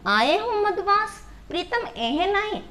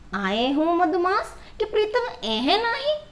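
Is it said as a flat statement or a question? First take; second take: question; statement. First: It is said as a questioning remark. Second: It is said as a flat statement.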